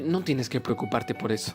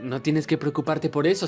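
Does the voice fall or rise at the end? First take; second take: fall; rise. First: The pitch does not rise at the end. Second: The pitch rises at the end of the sentence. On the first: It sounds natural in Spanish. The speaker calls it right. "Puedo decir tranquilamente" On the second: It copies the tune of the English original. The speaker calls it wrong. "siguiendo la misma tonalidad"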